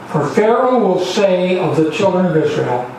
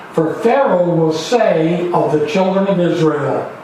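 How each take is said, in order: The two takes are said the same way.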